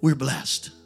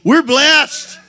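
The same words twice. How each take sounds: First: It is said plainly, with little energy. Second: It is said with more energy.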